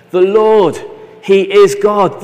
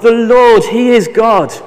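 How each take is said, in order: First: Loud, higher cry of worship, slowing on "he is God"; loud awed declaration; proclaiming. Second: Even higher and louder cry; louder second declaration; louder proclaiming. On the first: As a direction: cry it out from the ground. People fall on their faces. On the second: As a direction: build it to a climax, proclaiming. People fall, repeat louder. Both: Acted.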